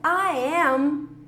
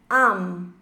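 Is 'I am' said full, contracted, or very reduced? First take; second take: full; very reduced. First: Both words are said fully and separately. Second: The pronoun nearly disappears, said very fast. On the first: "I am contraído fica" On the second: "ou mais rápido ainda"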